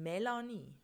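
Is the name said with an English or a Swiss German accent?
Swiss German. The name is said with Swiss German sounds. The speaker calls it right. "sondern Melanie"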